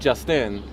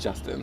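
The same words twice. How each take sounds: First: The stress is on the second syllable. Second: The stress is on the first syllable. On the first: "it'd be like an I am" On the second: "so it's like trochaic"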